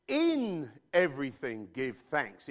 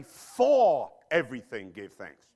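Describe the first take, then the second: First: "In" slow and weighted at the start; stress on In. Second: "For" slow and loud at the start; stress on For. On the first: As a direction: lean hard on "In", slowly. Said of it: "It says". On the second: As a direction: punch "For" louder, slowly. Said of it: "It doesn't say". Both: Shown as a demonstration.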